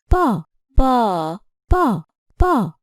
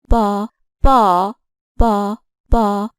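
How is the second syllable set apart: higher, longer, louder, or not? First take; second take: longer; louder. First: The second syllable is held longer than others. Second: The second syllable is said louder than others. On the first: "I have stressed the second syllable with length" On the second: "stress the second syllable ... with loudness"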